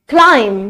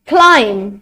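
Both takes have the same delivery.

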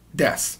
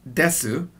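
First: The final u vowel is dropped, ending in s. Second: The final u vowel is fully pronounced. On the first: "it's gonna be pronounced like desu. This is the most natural way to say it" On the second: "even though it's written as desu"

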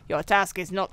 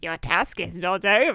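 First: It is said in her normal voice. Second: It is said in a creepy Mossman voice.

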